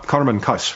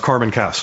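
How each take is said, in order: First: The name is said with a non-American pronunciation. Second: The name is said with an American pronunciation.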